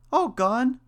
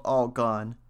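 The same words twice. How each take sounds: First: Very high, loud mouse question; crying out, mouse. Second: Said in the usual way. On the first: A narrator's reading. Mouse reacts to the third name, high loud cry. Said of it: "cried the mouse". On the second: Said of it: "said the cat".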